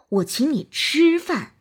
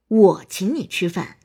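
First: The stress is on the word 吃. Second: The stress is on the word 我. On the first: "突出吃" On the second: "突出我"

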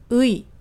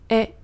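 First: The vowel is pronounced as a glide 'ui'. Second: The vowel is pronounced close to 'e'. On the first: This is the syllable read on its own. "它的读音其实是의" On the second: This is the possessive particle after a noun. "它的读音接近于a"

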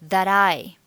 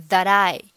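The two takes are said the same way.

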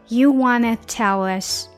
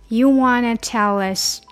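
No difference in how they are said.

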